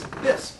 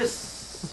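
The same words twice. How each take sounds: First: The final s sound is short. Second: The final s sound is long and hissed. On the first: The speaker calls it right. "the second S is silent" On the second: The speaker calls it wrong. "Otherwise, it would be Biss"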